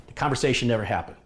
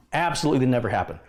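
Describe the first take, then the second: First: Said in the usual way. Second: "Absolutely" given the main weight, fast and insistent; stress on absolutely. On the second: Shown as a demonstration. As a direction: lean into "Absolutely".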